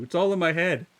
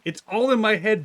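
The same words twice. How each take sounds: First: Loud teasing protest, falling; loud retort. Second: Loud, higher teasing protest; loud retort. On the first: Streamer repeating the protest to chat, slightly calmer. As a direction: insist once more. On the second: Streamer loudly protesting to teasing chat. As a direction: fire it back at chat. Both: Real, not acted.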